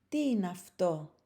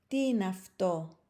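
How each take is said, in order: The two takes are said the same way.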